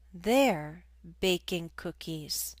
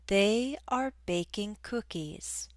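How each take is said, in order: First: They are is shortened into one syllable. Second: They are is said as two full words.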